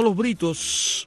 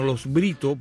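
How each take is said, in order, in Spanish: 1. El nombre termina con un sonido s. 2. El nombre termina sin un sonido s. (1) "no Los Britos" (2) "sino Los Britos, porque es el apellido"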